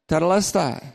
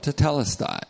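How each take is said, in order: First: The stress is not on the second syllable. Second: The stress is on the second syllable. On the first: The speaker calls it wrong. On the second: The speaker calls it right.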